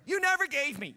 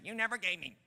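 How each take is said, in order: First: Aggrieved complaint. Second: Said in the usual way. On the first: Acted. Mocking the son's complaint.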